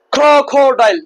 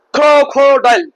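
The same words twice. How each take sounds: The two takes are said the same way.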